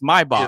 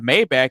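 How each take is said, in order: First: It uses the original pronunciation. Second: It uses the common everyday pronunciation. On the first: The speaker calls it right. "It's Maybach" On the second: The speaker calls it wrong. "that's not how you say it"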